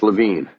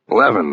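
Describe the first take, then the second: First: The name does not rhyme with heaven. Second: The name rhymes with heaven. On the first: The speaker calls it wrong. "He had pronounced the name here and on the phone earlier as Levine" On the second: The speaker calls it right. "I said the name rhymed with heaven"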